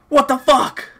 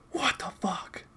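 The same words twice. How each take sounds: First: High-pitched, voiced disbelief; baffled outcry. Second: Hushed, voiceless disbelief; stunned whisper. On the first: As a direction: blurt it out high in real disbelief. Baffled reaction, first take. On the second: Baffled reaction, whispered second take. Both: Real, not acted.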